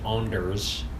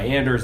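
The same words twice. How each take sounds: First: The name has a fancier, more pretentious pronunciation. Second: The name has a plainer, less pretentious pronunciation. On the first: "Some people think my name is" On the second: "that's also less pretentious"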